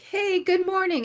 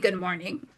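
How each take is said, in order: First: It is said in a bubbly, cheerful tone. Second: It is said in a grumpy, sour tone.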